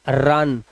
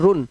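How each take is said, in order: First: The vowel sounds like 'uh'. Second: The vowel sounds like 'oo'. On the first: The speaker calls it right. "This is रन" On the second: The speaker calls it wrong. "And this is not रुन"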